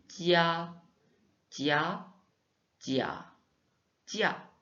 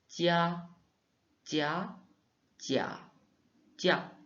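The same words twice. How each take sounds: No difference in how they are said.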